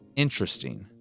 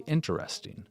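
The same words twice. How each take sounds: First: A syllable is dropped, unlike the spelling. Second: Every syllable is pronounced, following the spelling. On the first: "a lot of us would say interesting" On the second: "but it's really interesting"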